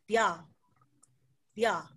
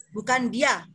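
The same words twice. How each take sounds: First: DIA with a t-like dental onset, nearly tya; lower, falling DIA with tongue on front teeth; Korean d. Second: DIA with a fully voiced d; plain hard-voiced d in DIA; Indonesian d. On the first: Correcting for learners, dental DIA. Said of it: "Beda ya, teman-teman". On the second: Showing learners the wrong sound, voiced DIA. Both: Shown as a demonstration.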